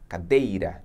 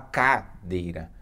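First: The stress falls on the middle syllable. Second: The stress falls on a syllable other than the middle one. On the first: The speaker calls it right. "D é a sílaba mais forte" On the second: The speaker calls it wrong. "Você não fala cadeira"

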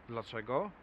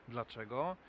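The two takes are said the same way.

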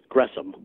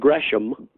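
First: The h sound is silent in the name. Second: The h sound is pronounced in the name. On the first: This is the real pronunciation of the name. The speaker calls it right. "but it's Gresham" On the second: This is how the spelling suggests it. The speaker calls it wrong. "Looks like Gresham"

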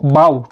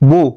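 First: The vowel rhymes with how. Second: The vowel rhymes with so. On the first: Bending forward in greeting. "या बावचा उच्चार आहे हाव प्रमाणे" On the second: A decorative ribbon or knot. "या बोचा उच्चार सो प्रमाणे"

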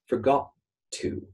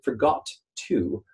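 First: The first T is held and released into the second word. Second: Each T sound is released separately. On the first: The speaker calls it right. "we're going to get forgot to" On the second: The speaker calls it wrong. "instead of saying forgot to"

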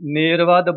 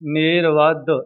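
First: The final d is short and single. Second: The final d is held and doubled. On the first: The speaker calls it wrong. "ਕਈ ਗੁਰਮੁਖ ਇਸ ਸ਼ਬਦ ਨੂੰ ਨੇਰਵਦ ਬੋਲਦੇ ਨੇ, ਪਰ ਇਸ ਦਾ ਸ਼ੁੱਧ ਉਚਾਰਨ ਇਹ ਨਹੀਂ ਹੈ" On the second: The speaker calls it right. "ਮੇ ਬੋਲ ਕੇ ਵਿੱਚ ਡਹਿ ਦੇਣੀ ਹੈ। ਰਾਰਾ ਬੋਵੇ ਅਦਕ"

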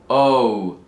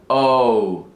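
The two takes are said the same way.

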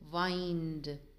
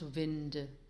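First: The vowel is a long I, rhyming with find. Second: The vowel is a short I, as in pinned. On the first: The speaker calls it right. "demands to be pronounced with a long I sound" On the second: The speaker calls it wrong.

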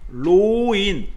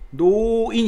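First: The word begins with an r-like sound. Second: The word begins with an n sound. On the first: This is the form before the initial-sound rule applies. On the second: This is the form after the initial-sound rule applies.

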